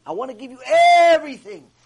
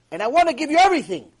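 First: First syllable of "everything" held long, high and loud; stretched EVERYTHING. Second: "everything" said loud and raised, at a quick pace; emphatic declaration. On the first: Hashem promising gifts at Sinai, hugely stretching "everything". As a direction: draw out the start of "everything" in a loud swell. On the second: Hashem promising gifts at Sinai, briskly emphatic on "everything". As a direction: declare "everything" briskly with force, without stretching it. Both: Acted.

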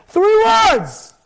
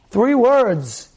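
First: Emphatic. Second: Said in the usual way. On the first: Real, not acted. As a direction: proclaim it to the crowd. Preacher building to the answer.

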